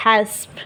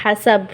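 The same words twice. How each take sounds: First: हस्ब with no vowel between स and ब; the right way, clipped हस्ब at the stop; correct pronunciation. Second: हसब said with an added vowel between स and ब; the common mistake, हसब with an extra a sound; wrong pronunciation. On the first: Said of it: "हम इसे ऐसे पढ़ेंगे". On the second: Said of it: "हमारी आदत है इसे हम क्या पढ़ेंगे". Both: Shown as a demonstration.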